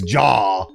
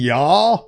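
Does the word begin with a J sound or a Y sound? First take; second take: J sound; Y sound. First: The word begins with a J sound. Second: The word begins with a Y sound. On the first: The speaker calls it right. "so it's Ja" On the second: The speaker calls it wrong. "Ya as in like a Scandinavian Ya?"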